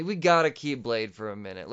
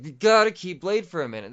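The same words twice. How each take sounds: First: Said in the usual way. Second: "gotta" hit higher and louder; heavy stress on "gotta", pitched up; emphatic repeat. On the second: Real, not acted. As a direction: punch the word "gotta" insistently.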